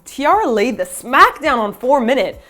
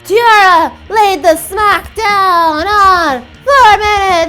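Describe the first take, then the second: First: It is said in a normal speaking voice. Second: It is said in a booming wrestling-announcer voice.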